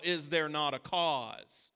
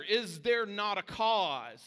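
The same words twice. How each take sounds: First: "Is there not a cause?" slow, "there" stressed; solemn challenge; slow weighty question. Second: "Is there not a cause?" very slow, "there" lifted high; rousing altar call; high slow rallying question. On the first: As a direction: lean on it, unhurried. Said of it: "question that we need to be asking". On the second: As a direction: call it out to the team. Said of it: "we need to be asking ourselves". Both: Shown as a demonstration.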